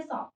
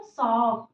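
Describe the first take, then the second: First: Said in the usual way. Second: "सॉक" with a long held aw; drawn out. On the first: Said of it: "पढ़ दिए सीधा में". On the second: Shown as a demonstration. Teacher contrasts it with the straight reading, long-held "सॉक". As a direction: stretch the vowel right out in "सॉक". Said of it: "मतलब थोड़ा खींच के".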